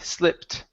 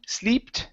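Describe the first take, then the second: First: The vowel is a short i sound. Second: The vowel is a long ee sound. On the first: The speaker calls it right. "Give me a short I sound" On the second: The speaker calls it wrong. "instead of slee"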